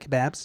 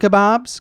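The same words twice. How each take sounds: First: It is said in a British accent. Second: It is said in an American accent.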